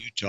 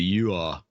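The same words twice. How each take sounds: First: The T sound is clearly pronounced. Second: The T sound is dropped. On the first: "it's not Utah" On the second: "Utahns have been dropping their T's"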